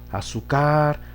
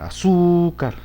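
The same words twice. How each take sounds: First: The stress is on the last syllable. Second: The stress is on the second syllable. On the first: The speaker calls it wrong. "En la car, no se puede" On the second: The speaker calls it right. "en la sílaba su, allí sí se acentúa"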